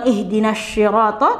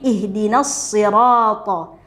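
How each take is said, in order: First: The consonant after ihdina is an sh sound. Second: The consonant after ihdina is a heavy s. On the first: The speaker calls it wrong. "Tidak seperti shin" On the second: The speaker calls it right. "mengucapkannya dengan huruf shad"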